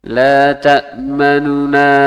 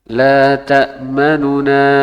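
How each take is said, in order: No difference in how they are said.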